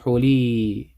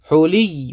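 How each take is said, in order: First: The ya is stretched as a long vowel. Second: The ya is held and doubled, not stretched. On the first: The speaker calls it wrong. "We don't stretch. ... We don't say حولي" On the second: The speaker calls it right. "We say حولي. We hold the ya"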